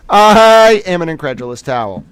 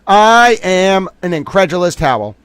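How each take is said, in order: First: Repeated through a real laugh, louder. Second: Said in the usual way. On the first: Real, not acted. Streamer amused at his own line, laughing. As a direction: crack up while saying it again.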